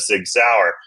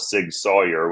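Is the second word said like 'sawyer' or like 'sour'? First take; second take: sour; sawyer. First: The second word sounds like 'sour'. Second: The second word sounds like 'sawyer'. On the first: This is the usual way of saying it. "instead of Sig Sauer" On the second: This is how the company's chief executive said it. "he actually called it Sig Sawyer"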